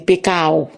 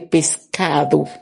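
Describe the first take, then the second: First: The s and d sounds are dropped. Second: The s and d sounds are fully pronounced. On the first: This is how it is said in Santo Domingo. "Tant que Saint-Domingue, ou parler, ou dit pecao" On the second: This is the careful form expected here. "Faut bien prononcer"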